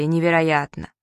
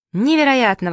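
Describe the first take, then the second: First: Lower, murmured echo of amazement; the townsfolk echoing the accountant in a different voice; crowd echoing. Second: Louder exclaim in wonder; the chief accountant gasping at the vanished sky; amazed exclamation. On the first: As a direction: repeat it as the awed passers-by. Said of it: "И все повторяли". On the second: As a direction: cry out in astonishment, head tilted back. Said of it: "воскликнул он". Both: A narrator's reading.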